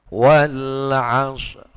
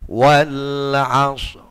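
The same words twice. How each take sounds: The two takes are said the same way.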